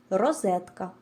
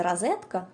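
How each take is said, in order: First: «розетка» with a clear O and a clear stressed E; careful «розетка», round O, open stressed E; correct clear vowels. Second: «розетка» with the unstressed O said as A; wrong A variant. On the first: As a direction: say «розетка» as rozEtka, vowels distinct. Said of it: "наголошені голосні звуки вимовляються завжди чітко". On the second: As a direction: say «розетка» as razetka. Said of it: "неправильно". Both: Shown as a demonstration.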